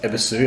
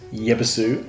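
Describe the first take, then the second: First: The name begins with a plain E sound. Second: The name begins with a Ye sound. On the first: This is how it is actually said. "it's actually pronounced Ebisu" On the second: This is how it is written in English. "it says Yebisu on there"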